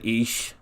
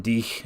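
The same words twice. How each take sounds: First: "ich" with a sh sound at the end; teacher's "ich" said as "ish". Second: "dich" with a sh sound at the end; teacher's "dich" said as "dish". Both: Retold or imitated. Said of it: "she did the S H sound".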